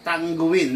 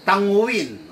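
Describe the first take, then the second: First: "Tangguin" with a hard g after ng; hard-g pronunciation. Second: "Tanguin" with ng alone, no hard g; soft-ng pronunciation. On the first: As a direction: say "Tangguin" as tang-gu-win. ("Tangguin" na may matigas na g) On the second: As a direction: say "Tanguin" as ta-ngu-win. ("Tanguin" na walang matigas na g) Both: Shown as a demonstration.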